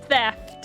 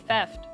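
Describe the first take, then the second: First: It starts with th, tongue between the teeth. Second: It starts with a t sound, no tongue between teeth. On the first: The speaker calls it right. "I have to put my tongue like in between my teeth" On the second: The speaker calls it wrong. "I just want to say theft, but that's wrong"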